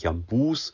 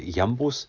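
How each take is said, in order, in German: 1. Die Betonung liegt auf der zweiten Silbe. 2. Die Betonung liegt auf der ersten Silbe.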